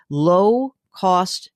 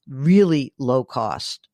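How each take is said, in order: First: Said in the usual way. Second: Really low cost stretched out slowly, each word weighted; stress on really low cost. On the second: Real, not acted. Advising a caller, slow emphatic repeat of really low cost. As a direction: drive home how cheap it should be.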